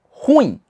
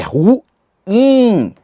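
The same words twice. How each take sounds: First: The u and i merge into one syllable. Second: The u and i are split into two syllables. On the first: The speaker calls it wrong. "e não ruim" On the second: The speaker calls it right. "A pronúncia de ruim é ruim"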